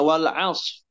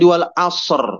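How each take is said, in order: First: The final r sound is dropped entirely. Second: The s sound bounces with an echo before r. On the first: "menghilangkan huruf ro-nya" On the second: "sodnya dipantulkan"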